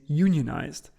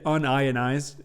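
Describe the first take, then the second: First: The word is split as union plus ized. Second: The word is split as un plus ionized. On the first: Workers who belong to a labor union. "who's part of like a union that protects them" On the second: Something that is not ionized. "A chemist is going to read unionized as in a non-ionized object"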